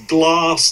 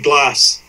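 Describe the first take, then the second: First: It has a long southern English A vowel. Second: It has a short, flat northern English A vowel.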